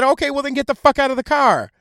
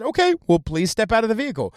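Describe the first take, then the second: First: Higher, forceful mock cop outburst; rude cop order. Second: Said in the usual way. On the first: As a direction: order her out as a fed-up cop. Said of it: "he didn't say it that way". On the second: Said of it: "he didn't say it that way, but he said".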